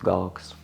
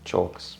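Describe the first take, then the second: First: The word starts with a hard g sound. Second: The word starts with a ch sound. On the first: The speaker calls it wrong. "not galks" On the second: The speaker calls it right. "it is pronounced chalks"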